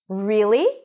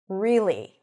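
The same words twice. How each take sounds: First: It is said high and rising, like a question. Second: The pitch drops down on the word. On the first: The speaker is surprised or excited. "If I lift the pitch up, sounds almost like a question, and I use a higher pitch" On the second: The speaker is dissatisfied. "When I drop the pitch down"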